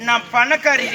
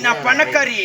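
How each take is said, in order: Both takes have the same delivery.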